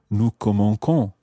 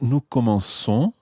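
First: The c is pronounced as a hard k sound. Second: The c is pronounced as a soft s sound. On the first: The speaker calls it wrong. "the C would have to be hard. It would sound like K" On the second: The speaker calls it right. "probably that doesn't sound any different. It sounds exactly as you would expect"

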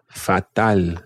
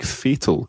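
First: It is pronounced like the Spanish word. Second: It is pronounced like the English word.

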